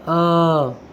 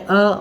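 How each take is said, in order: First: The vowel sound is long. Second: The vowel sound is short. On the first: "यहाँ पर दीर्घ अ" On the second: "short मतलब आधा अ"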